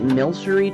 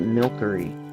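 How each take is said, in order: First: The middle consonant is a soft S sound. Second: The middle consonant is a hard K sound. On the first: "Is it Milcery to you" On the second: "I hate pronouncing it like that"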